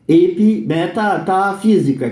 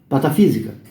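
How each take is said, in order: First: The word is said slowly with every syllable. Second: The word is said quickly with syllables dropped.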